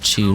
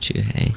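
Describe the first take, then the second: First: The name is said as one short syllable. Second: The name is said with two syllables. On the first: This is the speaker's usual way of saying it. "I pronounce it Chu normally" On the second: This is thought to be the intended way of saying it. "I think it's supposed to be pronounced Chuhei"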